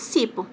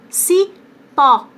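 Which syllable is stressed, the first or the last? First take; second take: first; last. First: The stress is on the first syllable. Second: The stress is on the last syllable. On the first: "Se eu tiro o acento, fica cipo" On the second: "Cipó, é o pó que é mais forte"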